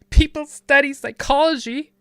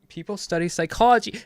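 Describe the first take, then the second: First: It is said in a put-on voice. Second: It is said in his normal voice. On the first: The speaker calls it right. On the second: The speaker calls it wrong.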